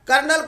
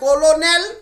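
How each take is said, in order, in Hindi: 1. यह दो अक्षरों में बोला जाता है, kernel की तरह। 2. यह तीन अक्षरों में बोला जाता है, हर अक्षर अलग-अलग। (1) "कर्नल को" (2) "लिखता है कोलोनेल"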